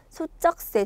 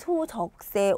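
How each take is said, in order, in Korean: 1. '소쩍새'의 가운데 자음은 된소리로 발음해요. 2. '소쩍새'의 가운데 자음은 예사소리로 발음해요. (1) "된소리가 났고" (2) "소적새 오바라고 하지 않잖아요"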